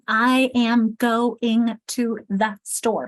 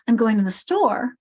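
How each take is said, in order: First: Every word gets full, equal stress. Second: Only I'm and store are stressed; others are reduced. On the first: The speaker calls it wrong. "I don't say I am" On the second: The speaker calls it right. "notice how store got so much, and even I'm, ... Everything else gets kind of swallowed"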